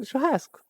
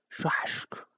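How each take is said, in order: First: Churrasco high and soft, with a plain hissed s; cute churrasco. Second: Churrasco in a hushed voice, the s as a long "sh"; strong Rio S. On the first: Contrasting with Rio people's way, a cute high churrasco. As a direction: say churrasco sweetly high, s rather than "sh". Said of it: "a cute way of saying churrasco". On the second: Demonstrating Rio's Churrasco, very strong hushed S. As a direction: stretch the "sh" before the c in Churrasco. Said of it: "with a very strong ass". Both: Shown as a demonstration.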